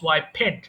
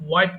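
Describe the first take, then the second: First: The ending is said as an extra syllable. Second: The ending adds no extra syllable. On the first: The speaker calls it wrong. "Sometimes people pronounce ওয়াইপেড" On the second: The speaker calls it right. "এটা কিন্তু ওয়াইপড হবে"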